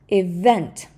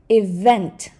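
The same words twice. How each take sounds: Both takes have the same delivery.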